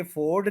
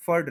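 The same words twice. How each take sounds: First: फोर्ड as FOARD, full O; wrong long vowel. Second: Neutral vowel in फर्ड; correct short vowel. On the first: Teacher rejecting error, फोर्ड with long O. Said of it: "ये फोर्ड नहीं रहेगा". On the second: Teacher correcting learners, फर्ड as short furd. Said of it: "फर्ड रहेगा". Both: Shown as a demonstration.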